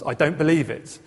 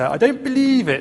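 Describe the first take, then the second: First: It is said in the speaker's plain voice. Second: It is said in the character's grumbling voice.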